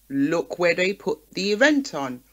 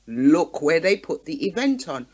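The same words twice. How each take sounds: The two takes are said the same way.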